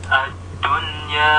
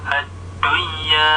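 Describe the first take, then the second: Both takes have the same delivery.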